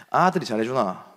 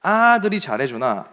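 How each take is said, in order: First: Gyeongsang dialect question. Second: Slow, higher "아들이 잘해주나?" with weight on 아들이; puzzled repeat. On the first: Retold or imitated. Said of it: "잘해주니?"라고 물어보는 것 같은데". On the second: Shown as a demonstration. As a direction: turn the phrase over, baffled by it. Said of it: "뭔지를 모르겠는 거예요".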